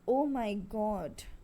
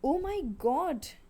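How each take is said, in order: First: It is said in a low, sad tone. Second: It is said in a higher, livelier tone. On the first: The speaker expresses grief. "my tone was low" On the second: The speaker expresses surprise. "interjections for surprise"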